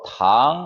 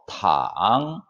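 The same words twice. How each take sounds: First: The pitch rises from mid to high. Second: The pitch dips very low, then rises. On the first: It means sugar or candy. "이성으로 탕 하게 되면" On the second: It means to lie down. "삼성으로 탕 하게 되면은"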